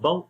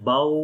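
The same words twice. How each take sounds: First: The waw sound is cut off abruptly. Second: The waw sound is drawn out long. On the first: "ना ही हमने झटका देकर पढ़ना है" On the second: "ना तो इस यहां पर हमने लंबा करना है"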